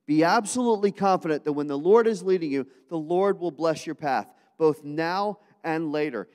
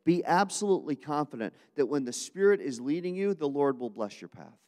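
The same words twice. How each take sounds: First: Louder and higher, driving the principle home with full force; preached louder. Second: Said in the usual way. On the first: Shown as a demonstration. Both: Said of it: "second spiritual principle for today".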